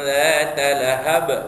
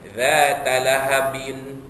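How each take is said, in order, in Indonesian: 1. Kata terakhir berakhir dengan konsonan saja. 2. Kata terakhir berakhir dengan tambahan -in.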